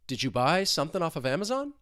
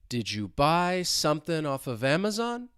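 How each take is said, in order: First: The question is said fast, sounds running together. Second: The question is said slowly, with clear breaks. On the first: "let's say it faster" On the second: "let's say it two times slowly"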